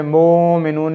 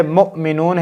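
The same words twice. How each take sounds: First: मोमिनून with the long o voiced from the waw; wrong reading. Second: मुमिनून said with a short u, reading the hamza; मुमिनून, mu not mo; correct reading. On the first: Teacher demonstrating the wrong मोमिनून to avoid. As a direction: show the mistake: मोमिनून with a drawn o. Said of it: "मोमिनून नहीं करना". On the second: Teacher reading मुमिनून correctly to Qaida learners. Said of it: "Hamza को ही पढ़ना है". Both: Shown as a demonstration.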